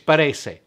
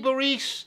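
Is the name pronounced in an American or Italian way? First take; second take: Italian; American. First: The name is said with an Italian pronunciation. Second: The name is said with an Americanized pronunciation. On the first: "So it's Barese. I don't care what they say" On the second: "that's kind of an Americanization of this beautiful word"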